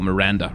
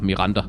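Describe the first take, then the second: First: The name is said with an English pronunciation. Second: The name is said with a Danish pronunciation.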